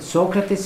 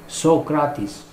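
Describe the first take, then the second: First: The name is said the usual English way. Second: The name is said the Greek way. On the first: The speaker calls it wrong. "Socrates is not the right pronunciation" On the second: The speaker calls it right. "The right pronunciation is Socrates. ... he knew the Greek pronunciation"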